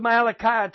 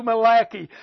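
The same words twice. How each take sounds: First: Said in the usual way. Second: Malachi said as "muh-LACK-ee"; jokey local pronunciation. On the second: Shown as a demonstration. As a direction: stress the middle of Malachi, ending in "kee". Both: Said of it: "We like to call Malachi Malachi down at church".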